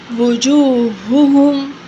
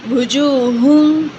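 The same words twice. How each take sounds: First: Both h sounds are pronounced separately and clearly. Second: The two h sounds merge into one h. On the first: The speaker calls it right. "We have to say that this word wujuhum" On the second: The speaker calls it wrong. "this ha sound is merged as you hear hear them as a ha, one ha"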